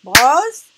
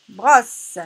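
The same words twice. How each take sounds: First: "Brosse" split into loud bros - se; "Brosse" in two separated, forceful syllables. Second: Said in the usual way. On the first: Shown as a demonstration. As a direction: punch both beats of "Brosse", final e sounded. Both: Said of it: "nous avons ici deux syllabes".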